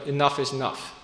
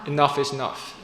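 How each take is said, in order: No difference in how they are said.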